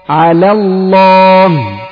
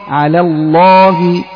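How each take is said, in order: Both takes have the same delivery.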